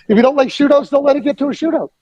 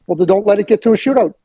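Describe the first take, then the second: First: Higher, fast, laughing comeback; laughing retort. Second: Fast, wry comeback; quick retort. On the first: Host laughing as he repeats shootout line. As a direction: repeat it again, amused. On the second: Host retells his retort to Hitchcock, quick and wry. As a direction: toss off the answer quickly. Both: Retold or imitated. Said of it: "what I would say".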